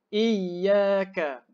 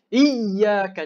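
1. Huruf ya bersabdu ditinggikan sedikit dan lembut. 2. Huruf ya bersabdu ditinggikan kuat dan keras. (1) "Lembut saja" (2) "Jangan tinggikan sangat"

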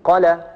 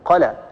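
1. الحركة بعد الحرف الأول قصيرة. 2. الحركة بعد الحرف الأول قصيرة.

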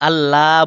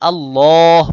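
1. l ধ্বনিটি হালকা ও পাতলা। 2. l ধ্বনিটি ভারী ও মোটা। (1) "আল্লাহ বললে পাতলা হয়ে যাবে" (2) "আল্লাহ মোটা করতে হবে"

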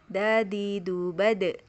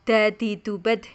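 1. Huruf d terakhir dilepas dengan sedikit gema. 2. Huruf d terakhir dipotong tanpa dilepas. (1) "Tapi dadidu bade, tahan nafas, tahan suara" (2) "Nggak boleh dadidu bad"

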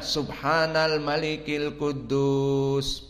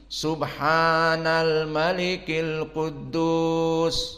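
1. Agak pendek dan tidak terlalu keras. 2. Agak lebih tinggi nadanya dan lebih penuh. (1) "yang awal tidak begitu panjang dan tidak begitu keras" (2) "kedua agak tinggi"

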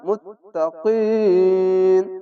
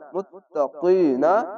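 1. শেষের স্বরধ্বনিটি বাদ যায়, তখন শব্দটি ব্যঞ্জনে শেষ হয়। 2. শব্দটি একটি শেষ স্বরধ্বনি দিয়ে শেষ হয়।

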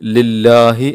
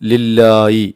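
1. അവസാനത്തെ 'i'ക്ക് മുമ്പ് 'h' ശബ്ദമാണ്. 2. അവസാനത്തെ 'i'ക്ക് മുമ്പ് 'y' ശബ്ദമാണ്. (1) "ഹാ വ്യക്തമാക്കി തന്നെ ഓതണം" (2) "ഹാഇന് പകരം യാ ആക്കി ഉച്ചരിക്കുന്നവരെയും കേട്ടിട്ടുണ്ട്"

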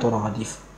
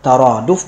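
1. Dua vokal pertama adalah u dan i. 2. Dua vokal pertama adalah a dan a. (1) "bukan turadif" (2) "Yang seharusnya dibaca adalah taraduf"

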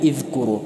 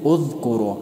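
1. الصائت الأول ليس صوت 'u'. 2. الصائت الأول هو صوت 'u'. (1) "نمیگیم که اذکروا" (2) "پس همزه وصلی هم مذموم تلفظ می شود"

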